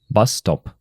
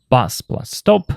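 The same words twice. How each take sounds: First: Bus stop with bus stressed and falling; stress on first noun. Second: Slow, each noun separate; nouns said apart. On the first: Teacher shows learners the compound, stress on bus. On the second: Teacher shows learners the two nouns, said slowly apart. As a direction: spell out the two parts slowly. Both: Shown as a demonstration. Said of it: "For example".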